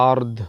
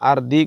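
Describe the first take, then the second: First: The word ends on the d consonant. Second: The word ends with a short vowel after d. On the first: The reader pauses at the stop mark here. The speaker calls it right. "দম ফলের চিহ্ন আছে, ফিল আরদ হবে" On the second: The reader does not stop at this word. The speaker calls it wrong. "আর দি কওয়া যাবে না"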